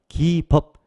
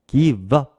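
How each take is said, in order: First: Said quickly, the v sound runs into up. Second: The same.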